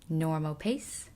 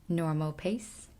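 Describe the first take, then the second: Both takes have the same delivery.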